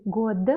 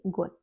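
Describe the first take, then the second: First: "год" with a voiced final d, "god"; spelling pronunciation. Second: "год" with a final t, "got"; devoiced final consonant. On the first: Teacher showing the written form, "год" with voiced d. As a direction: end "год" on a clear d. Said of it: "on écrit год". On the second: Teacher showing how one reads it, "год" as got. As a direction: end "год" on a voiceless t. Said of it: "on lit год". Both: Shown as a demonstration.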